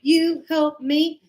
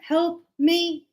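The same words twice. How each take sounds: First: You help me, slow, with You pushed up; stress on You. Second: Said in the usual way. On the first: Shown as a demonstration. Teacher showing the stress on You, slow and pointed. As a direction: lean on You and draw it out slowly. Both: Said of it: "That is the action".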